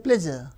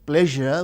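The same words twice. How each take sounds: First: The middle consonant is a plain 'z' sound. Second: The middle consonant is a soft 'zh' sound. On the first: "So we replace with z. ... we say pleasure" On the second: "we don't say pleasure"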